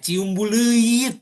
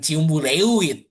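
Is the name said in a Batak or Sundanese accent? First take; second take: Sundanese; Batak. First: It is said with a standard Sundanese vowel. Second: It is said with a Batak-style vowel. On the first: The speaker calls it right. "itunya ciumbu leuit" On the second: The speaker calls it wrong. "bukan ciumbu lewit"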